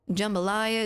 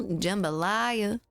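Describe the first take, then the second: First: Said in the usual way. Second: "Jambalaya" said slowly, syllable by syllable; clear pronunciation. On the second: Shown as a demonstration. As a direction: stretch out "Jambalaya" so each sound is clear. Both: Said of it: "Jumbo what now?".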